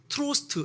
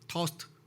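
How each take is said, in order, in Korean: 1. R 소리가 분명하게 발음돼요. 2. R 소리는 거의 안 나요. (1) "그냥 우리 흔한 영어식으로 하면 트로스트 이렇게 읽으면 될 것 같잖아요. 근데 아니더라고요" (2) "R자가 약간 묵음 같아"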